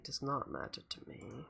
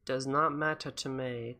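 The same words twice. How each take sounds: First: Much softer, almost breathed; quiet. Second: Said in the usual way. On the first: Shown as a demonstration. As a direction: say it again very softly.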